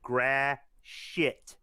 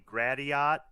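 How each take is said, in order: First: The ending is pronounced like the word 'shit'. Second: The ending is pronounced the way it is spelled. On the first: The speaker calls it right. "it's actually pronounced Gratiot. Emphasize the shit" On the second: The speaker calls it wrong. "If you were to phonetically pronounce it"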